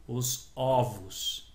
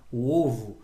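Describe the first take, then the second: First: "ovos" with a wide-open first o, very slow; open vowel. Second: "ovo" with a closed first o; closed vowel. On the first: Teacher showing the metaphonic plural, open vowel. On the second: Teacher showing the metaphonic singular, closed vowel. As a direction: say "ovo" with a tight, closed stressed o. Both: Shown as a demonstration. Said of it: "muda o som".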